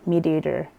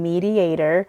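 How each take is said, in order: First: The vowels are poorly articulated and blurred. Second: The vowels are pronounced clearly. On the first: The speaker calls it wrong. "I couldn't pronounce the vowels very well in that word" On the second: The speaker calls it right. "instead of saying mediator"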